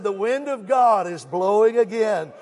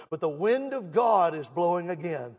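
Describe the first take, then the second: First: Louder, slower preached repeat; emphatic repeat. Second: Said in the usual way. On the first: Shown as a demonstration. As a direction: drive the line home for the church. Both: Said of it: "I said".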